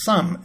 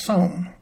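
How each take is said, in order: First: SOME with a short UH, like "sum"; usual pronunciation. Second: SOM with a long O, rhyming with home; spelling pronunciation. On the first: Teacher gives the resulting word, "some" with short UH. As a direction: say "some" to rhyme with drum. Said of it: "That gave us some as the pronunciation". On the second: Teacher shows the spelling-based sound, "som" rhyming with home. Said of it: "it should be pronounced". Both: Shown as a demonstration.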